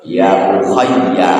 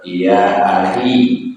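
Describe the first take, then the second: First: The word starts with 'u' and has a doubled 'y'. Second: The word starts with 'a' and has a light ending. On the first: This is the second transmitted reading. "riwayat kedua ... hamzahnya pakai dhamma" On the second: This is the first transmitted reading. "Riwayat pertama"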